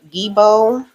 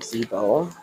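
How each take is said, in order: First: The word begins with a hard G sound. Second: The word begins with a Z sound.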